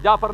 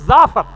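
First: जाफर said with a j sound, as "jafar"; wrong pronunciation. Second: जाफर said with a z sound, as "zafar", louder; correct pronunciation. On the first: Preacher showing the congregation the common mispronunciation, jafar with j. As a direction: say जाफर the mistaken way, starting with j. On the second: Preacher correcting the congregation's pronunciation of the name, zafar with z. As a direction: say जाफर properly with z, firmly. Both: Shown as a demonstration. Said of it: "वो कुछ लोग जाफर पढ़ते हैं".

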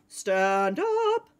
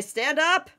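First: Chanted, long stretched words leaping upward; chanted, swoop up on the last word; drawn-out chant. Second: Said in the usual way. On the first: Pretend. Player rallying friends for the hunt, drawn-out chant. Drawn-out mock hype repeat.

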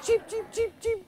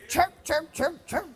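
First: High, laughing chick cheeps; baby chick peeping. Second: Soft, weak hen chirps; a quiet, badly faked hen call; poor hen imitation. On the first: Pretend. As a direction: peep like a tiny chick through a laugh. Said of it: "that's the little chick". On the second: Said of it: "That was a poor imitation of a hen".

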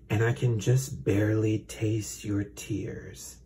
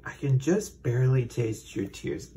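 First: Slow, creepy snake voice, "just" drawn out. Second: Repeated with weight on "just" and a falling end; creepy repeat. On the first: Acted. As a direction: savor every word like a sinister serpent. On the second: Shown as a demonstration. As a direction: lean hard on "just" with a creepy fall. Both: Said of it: "such a creepy".

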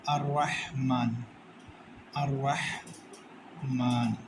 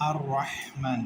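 First: Heavy র in আর রাহমান, slow and drawn out; slow Quranic recitation. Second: Said in the usual way. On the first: Shown as a demonstration. Teacher recites আর রাহমান for students, slow and heavy. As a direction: chant আর রাহমান slowly, with a full heavy রা. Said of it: "রটারে মোটা করে পড়তে হবে।". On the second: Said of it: "এখানে তাজবিদের কি নিয়ম আছে?".

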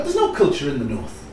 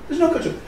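First: Said in the usual way. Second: "no" pitched much higher in mock scorn; mock disbelief. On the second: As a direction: echo it back, higher and mocking. Mocking the southern view.

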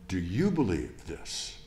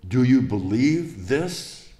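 First: Said in the usual way. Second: Slow, louder searching question, rising at the end; Jesus asking earnestly. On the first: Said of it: "And I ask you". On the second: Acted. Preacher voicing Jesus questioning Martha, slow and earnest. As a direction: lean in and ask it slowly, weighing each word. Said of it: "he says".

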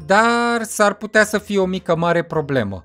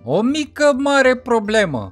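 First: Said in the usual way. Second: Slow, leaning on "mare" with a falling tune; stress on mare. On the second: Acted. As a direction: draw it out and hit "mare". (rar, cu accent pe "mare") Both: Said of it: "Cum ziceam".

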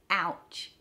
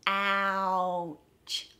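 First: Said in the usual way. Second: "Ouch" stretched out, gliding through the vowel; slowed down. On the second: Shown as a demonstration. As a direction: draw out the vowel of "Ouch" before the ch. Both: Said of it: "practice slowing it down".

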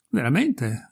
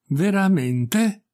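First: Said in the usual way. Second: Very drawn-out VERAMENTE, higher and rising at the end; slow, deliberate exclamation. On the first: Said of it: "ripeté il vassallo". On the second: A narrator's reading. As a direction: stretch "Veramente" slowly, as if the idea is sinking in. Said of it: "esclamò il barone come se si lasciasse impressionare lentamente e deliberatamente". ("Veramente" lento e deliberato, in tono ascendente)

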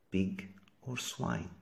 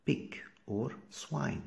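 First: "Pig or swine" slowly, hitting "pig" and falling at the end; teacher stressing "pig" this time. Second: "Pig or swine" slowly, with the weight on "swine" and a rising end; teacher drawing out "swine"; stress on swine. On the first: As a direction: punch "pig", let "swine" drop. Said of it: "teacher repeats the pair". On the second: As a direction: lean into "swine", let it lift. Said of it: "teacher drills the pair". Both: Shown as a demonstration.

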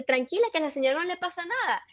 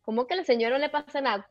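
First: Higher-pitched mock soothing; imitated reassuring mother. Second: Quick incredulous echo; retold disbelief. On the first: Mother telling her crying daughter not to worry, imitated reassurance. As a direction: wave the worry away in a raised voice. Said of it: "y ella me dice". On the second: Daughter questioning her mother's reassurance, retold disbelief. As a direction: throw the words back in rapid disbelief. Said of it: "y yo".

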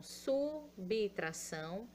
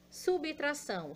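First: Subtração slowed to su-bi-tra-ção; slow syllable-split subtração. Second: Said in the usual way. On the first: Shown as a demonstration. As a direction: stretch subtração out, sounding each syllable.

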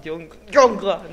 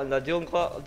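First: Jungle said slowly and louder, English-style, with a stutter start; drawn-out jungle. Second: Said in the usual way. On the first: Shown as a demonstration. Gamer relishing how jungle sounds, slow and louder. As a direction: savour the word jungle, stretching jung- then jungle. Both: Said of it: "Me encanta cómo se pronuncia".

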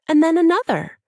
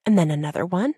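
First: Another said high and loud with a falling end; emphatic another. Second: Said in the usual way. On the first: A narrator's reading. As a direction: land hard on another. Narrator builds repetition.

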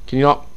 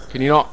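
No difference in how they are said.

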